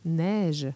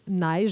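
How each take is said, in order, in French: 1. La voyelle est simple et stable, une seule voyelle. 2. La voyelle est longue et glisse comme une diphtongue. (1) "les Français, quand ils vont dire le mot neige" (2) "nos fameuses voyelles longues ... la diphtongaison"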